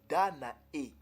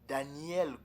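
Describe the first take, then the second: First: The name ends with a vowel, no L. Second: The name ends with an L sound. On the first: The speaker calls it right. "mais c'est Danae" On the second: The speaker calls it wrong. "C'est pas Daniel comme euh, l'a prononcé ici"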